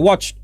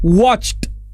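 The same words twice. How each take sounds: First: The -ed ending is barely pronounced, run together. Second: The -ed ending is clearly and fully pronounced. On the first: "Nggak perlu terlalu ditekankan ed-nya" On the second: "Cara pembacanya adalah watched"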